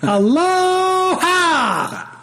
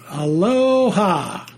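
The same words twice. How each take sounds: First: It is said with great enthusiasm. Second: It is said flatly, without enthusiasm.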